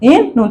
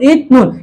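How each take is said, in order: First: The first syllable ends with an n sound. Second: The first syllable ends with a t sound. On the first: The speaker calls it right. "ইত নুন না হয়ে উচ্চারণটা হবে ইন নুন" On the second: The speaker calls it wrong. "এই উচ্চারণটা আমাদের ভুল"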